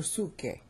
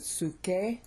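First: Suke with the stress on SU, falling away; accent on SU. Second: Suke drawn out with the stress on KE; accent on KE. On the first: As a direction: hit the first syllable of "suke". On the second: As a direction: lean slowly on the end of "suke". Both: Shown as a demonstration. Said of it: "I changed the accent".

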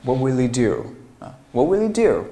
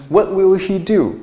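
First: "will he" joined as "willy", h dropped; quick "will he" without the h; linked reading. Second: High, loud "will he" with full h; effortful unlinked reading. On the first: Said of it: "所以说我们连读的时候". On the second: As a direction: labour each word, "he" fully pronounced. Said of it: "如果说你要读成". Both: Shown as a demonstration.

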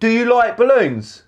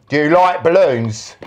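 First: Calling out. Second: Said in the usual way. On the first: Real, not acted. Calling question to Brad. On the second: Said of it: "repeats louder to Brad".

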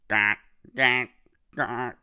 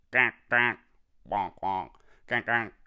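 First: Loud, bold duck quacks; big ducks quacking. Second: Small ducks quacking. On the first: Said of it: "The big ducks say". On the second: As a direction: quack like an eager little duck. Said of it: "The small ducks ... say". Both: Retold or imitated.

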